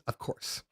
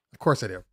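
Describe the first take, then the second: First: Whispered. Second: Said in the usual way. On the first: Real, not acted. Aside answering own question.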